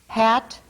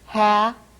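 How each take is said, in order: First: The final t is a normal oral stop. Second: The final t is left out entirely. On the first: "normal stop" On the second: "omitted stop"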